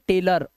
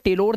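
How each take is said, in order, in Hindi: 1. आखिरी अक्षर में हल्का 'uh' स्वर है। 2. आखिरी अक्षर में पूरा 'o' स्वर है। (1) "सर पढ़ेंगे टेलर" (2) "इसे टेलोर नहीं पढ़ सकते"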